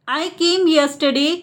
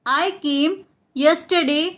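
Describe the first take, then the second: First: Said in the usual way. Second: Split repeat. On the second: Shown as a demonstration. Teacher repeats the translation for learners, split in two. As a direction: pause between "I came" and "yesterday".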